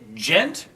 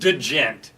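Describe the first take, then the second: First: It starts directly with a J sound. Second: It starts with an audible D before the J. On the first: The speaker calls it right. "It is just gent" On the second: The speaker calls it wrong. "you've got to pronounce the D"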